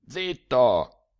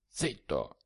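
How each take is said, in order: First: Said in the usual way. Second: Much softer, a sharp hush. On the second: A narrator's reading. Sturzi hushes the shouting narrator, much softer. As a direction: finger to lips, shush him. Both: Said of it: "mettendosi l'indice attraverso le labbra".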